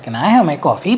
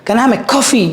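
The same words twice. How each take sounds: First: It is said with heavy emphasis on words. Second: It is said evenly, with no word emphasized. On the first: The speaker calls it wrong. "You don't do that" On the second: The speaker calls it right. "You never stress that"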